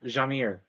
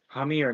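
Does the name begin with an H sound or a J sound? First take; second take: J sound; H sound. First: The name begins with a J sound. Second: The name begins with an H sound. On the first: The speaker calls it wrong. "not Jamir" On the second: The speaker calls it right. "How do I keep forgetting it's Hamir"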